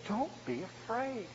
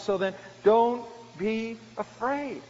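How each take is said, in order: First: Soft and slow, DONT eased gently down; calm frightened brothers, barely above a breath; kind reassurance. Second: Slow, DONT leaned on and drawn out; kind reassurance. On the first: Joseph soothing his terrified brothers, soft and slow. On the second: Joseph repeating comfort to his brothers, slow and firm. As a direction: press the comfort home, unhurried. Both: Acted. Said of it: "he reassured them and spoke kindly to them".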